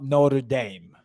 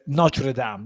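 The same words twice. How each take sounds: First: It is said with an American pronunciation. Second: It is said with a non-American pronunciation. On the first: The speaker calls it wrong. "not Notre Dame ... Americans say Notre Dame" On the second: The speaker calls it right. "it's Notre, Notre Dame"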